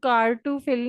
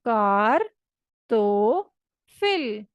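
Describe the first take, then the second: First: The middle syllable has an 'oo' vowel. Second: The middle syllable has an 'oh' vowel. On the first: The speaker calls it wrong. "आपने इसको कार टू फिल नहीं पढ़ना" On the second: The speaker calls it right. "आपने इसको पढ़ना है कार तो फिल"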